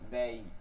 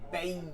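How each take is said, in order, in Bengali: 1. অক্ষরটি নরম করে, চাপ ছাড়া বলা হয়। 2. অক্ষরটি চাপ দিয়ে শক্ত করে বলা হয়। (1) "নর্মাল হবে।" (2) "আমরা এরকম পড়ি নাই, এটা তাসদিদের উচ্চারণ। এটাকে বলে শক্ত।"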